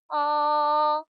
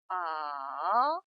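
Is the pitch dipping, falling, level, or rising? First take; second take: level; dipping. First: The pitch stays high and level throughout. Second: The pitch dips low, then rises again. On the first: "가장 높은 음에서 시작합니다. 높고 평평한 음이에요" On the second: "레의 음에서 도의 음으로 내려왔다가 다시 파까지 올라가는 음입니다"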